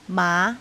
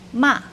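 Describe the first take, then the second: First: The pitch rises from fairly low. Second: The pitch falls sharply from high. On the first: "Deuxième ton, c'est le ton montant" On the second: "Quatrième ton, c'est le ton descendant"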